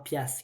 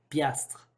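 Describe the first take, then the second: First: The word ends in -asse, without the tr. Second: The word ends with a full -astre sound. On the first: "c'est vraiment pièce qu'il faut dire" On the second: "si vous voulez le prononcer correctement"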